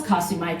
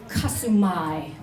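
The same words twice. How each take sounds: First: Said in the usual way. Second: Kasumai said slowly, KA-su-MAI falling at the end; drawn-out Kasumai, the end dropping; slow Jola greeting. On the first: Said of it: "when someone says". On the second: Retold or imitated. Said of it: "and she says".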